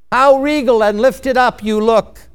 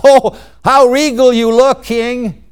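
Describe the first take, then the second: First: Restrained, dutiful courtier's flattery; lacking conviction. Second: Higher, louder gushing flattery; with conviction. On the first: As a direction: praise the king without really selling it. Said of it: "You didn't say that with conviction". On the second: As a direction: gush over the king as a hammed-up courtier. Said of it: "That's the way I want to hear it". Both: Acted.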